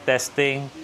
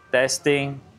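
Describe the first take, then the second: First: Fan noise is heard behind the voice. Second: The voice sounds clean without fan noise. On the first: "ito turn off ko yung noise cancellation. Ayan, so malamang ah, naririnig nyo yung ingay ng electric fan" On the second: "I-turn on ko naman yung kanyang noise cancellation"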